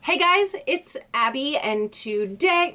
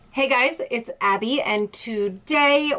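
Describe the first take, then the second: First: It is said with very high, excited energy. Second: It is said with calmer, moderate energy.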